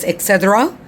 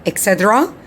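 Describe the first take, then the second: The two takes are said the same way.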